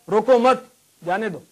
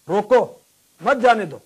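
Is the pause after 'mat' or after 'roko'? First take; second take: after mat; after roko. First: There is a pause right after 'mat'. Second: There is a pause right after 'roko'.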